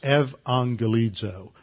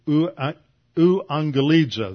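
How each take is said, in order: First: The opening is said with a v sound. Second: The opening is said with a u-like vowel. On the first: "historically in Greek was pronounced as a V" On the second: "That's how we usually pronounce it"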